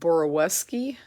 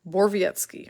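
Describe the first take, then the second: First: The name is said as Boroweski. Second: The name is said as Borvietsky. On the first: The speaker calls it wrong. "I've been saying Boroweski" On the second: The speaker calls it right. "it is actually pronounced Borvietsky"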